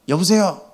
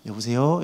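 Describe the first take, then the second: First: The greeting is said sharply and harshly. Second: The greeting is said softly and gently. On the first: The person answering was still angry. "막 이러면서 막 더 쏴 붙이시더라고요" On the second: The caller expected a calm, friendly answer. "이렇게 부드럽게 할 줄 알았는데"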